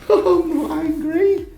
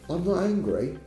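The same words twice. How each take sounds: First: It is said in a joking, friendly tone. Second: It is said in a sincere, calm tone. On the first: The remark is lighthearted banter. "Joking, friendly" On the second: The speaker truly is not angry. "That's sincere. That means I'm not angry"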